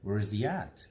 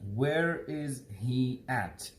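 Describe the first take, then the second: First: The words are fast, reduced and run together. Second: Each word is said clearly and separately. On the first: "But how do Americans say it?" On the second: "This is how we are going to read this sentence"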